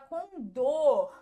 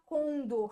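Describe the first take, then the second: First: The stress is on the second syllable. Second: The stress is on the first syllable. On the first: The speaker calls it right. "a gente fala condor. ... E aí a gente tem oxítona também" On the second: The speaker calls it wrong. "a gente não fala condor"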